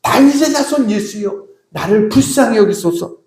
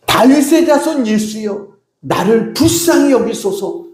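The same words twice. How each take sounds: First: Acted plea, pitched very high at the start; more insistent cry. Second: Mock shout, high-pitched and drawn out; crying out for mercy. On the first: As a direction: cry out more urgently, without truly shouting. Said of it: "더 크게 소리 지릅니다". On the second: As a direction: call out slowly in a raised pitch, pleading. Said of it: "크게 소리 지르기 시작합니다".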